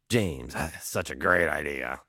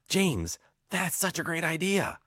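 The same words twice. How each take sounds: First: It is said with an unenthusiastic, dismissive tone. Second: It is said with an enthusiastic, lively tone. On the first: "same words, totally different tone" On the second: "there's enthusiasm there"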